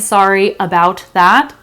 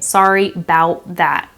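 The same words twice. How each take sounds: First: Each word is said separately and carefully. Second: The words are linked together smoothly. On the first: The speaker calls it wrong. "I'm not saying" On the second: The speaker calls it right. "I'm saying"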